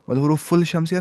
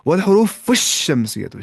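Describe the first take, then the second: First: The l sound is clearly pronounced. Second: The l sound merges into a doubled sh. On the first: The speaker calls it wrong. "नहीं" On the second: The speaker calls it right. "शीन सीधे पढ़ दिया, लाम पढ़ा ही नहीं"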